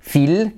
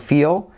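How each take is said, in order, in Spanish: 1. La L final es corta y suave. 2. La L final es fuerte y casi añade una sílaba. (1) "como no se dice feel" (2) "sino feel"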